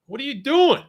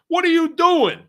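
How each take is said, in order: First: High, loud, baffled cop shout; mock cop. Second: Even higher, louder cop yell breaking into a laugh; mock cop, laughing. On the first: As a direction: play the cop yelling at the driver. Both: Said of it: "The cop be like".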